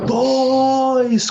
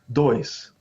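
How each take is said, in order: First: It is shouted loudly. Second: It is said quietly and plainly.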